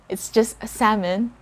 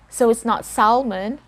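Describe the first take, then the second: First: The L sound is silent. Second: The L sound is pronounced. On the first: The speaker calls it right. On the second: The speaker calls it wrong. "We don't sound the letter L here"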